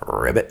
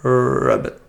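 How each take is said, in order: First: Deep croaking ribbit, much lower; frog voice. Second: Croaky frog ribbit. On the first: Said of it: "I thought that's decent". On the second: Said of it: "can you do a frog ribbit". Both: Pretend.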